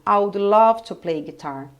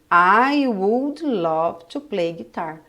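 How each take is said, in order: First: The word would is contracted onto I. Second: The word would is said in full. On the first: "Mas eu pronuncio dessa forma" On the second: "É como se eu tivesse escrito aqui"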